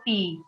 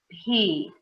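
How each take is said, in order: First: The consonant is said without a puff of air. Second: The consonant is said with a puff of air. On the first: The speaker calls it wrong. "não pi" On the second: The speaker calls it right. "a gente tem que soltar também"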